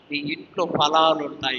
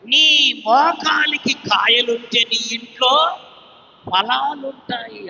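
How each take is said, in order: First: Said in the usual way. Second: Slow, higher and louder declaration; preached proclamation. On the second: Acted. Preacher proclaiming to the congregation, slow emphatic declaration. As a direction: drive the promise home word by word.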